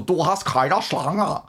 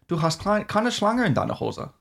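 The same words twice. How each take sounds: First: Slow, silly mock reading without German accent. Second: High, lilting put-on German; strong German accent. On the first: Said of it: "As opposed to". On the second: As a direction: demonstrate an exaggerated German accent. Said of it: "like, a really strong accent". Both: Shown as a demonstration.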